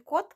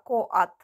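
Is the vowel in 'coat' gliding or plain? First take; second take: plain; gliding. First: The vowel is a short plain o. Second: The vowel glides from o toward a. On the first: The speaker calls it wrong. "Не кот" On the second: The speaker calls it right. "а коат"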